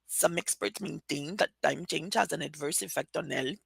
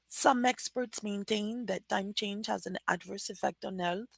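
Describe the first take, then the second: First: It is rushed quickly, pushed back in the throat. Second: It is read with a flat, even pitch. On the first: "they try to speak more quickly" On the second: "I'm going to read just with flat sounds"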